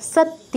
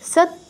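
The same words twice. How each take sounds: Both takes have the same delivery.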